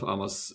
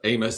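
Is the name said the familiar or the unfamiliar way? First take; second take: unfamiliar; familiar. First: The name is said in an unfamiliar way. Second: The name is said in the familiar way. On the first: This is the guest's way of saying the name. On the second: This is how the name was learned growing up.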